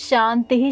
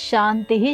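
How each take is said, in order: Both takes have the same delivery.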